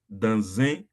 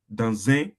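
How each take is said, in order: First: The two words run together in one linked sound. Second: The two words run together in one linked sound.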